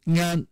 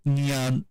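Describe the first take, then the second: First: NYAN cited higher, without the y-glide; lone raised syllable "nyan", glide-free; original-form demo. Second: NYAN with a ya between n and a; nyan, palatal glide after the nasal; y-glide demo. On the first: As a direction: say "nyan" as ngan, nasal straight into the vowel. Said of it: "at some point becomes Mandarin nyan". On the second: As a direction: say "nyan" with a clear y before the vowel. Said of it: "with a ya in between". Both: Shown as a demonstration.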